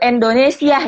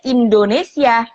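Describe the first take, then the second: First: The first vowel sounds like e. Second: The first vowel sounds like i. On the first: The speaker calls it wrong. "Jangan ada yang sebut i-nya jadi e gitu" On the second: The speaker calls it right. "ya kita sebutnya Indonesia"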